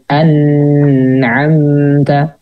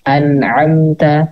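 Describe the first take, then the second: First: The n is held long with an added nasal hum. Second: The n is short and clear, without nasal hum. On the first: The speaker calls it wrong. "jangan ya" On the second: The speaker calls it right. "tanpa ada gunah tambahan ya, jadi tidak perlu lama-lama gitu"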